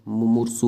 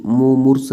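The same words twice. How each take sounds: First: मुमूर्षु ending in "su"; correct form. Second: मुमूर्ष ending on s; loud, punched मुमूर्ष as "mu-moors"; no final vowel on मुमूर्ष; wrong form. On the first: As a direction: say मुमूर्षु as "mu-moor-su". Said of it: "होता है". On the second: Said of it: "नहीं होता है". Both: Shown as a demonstration.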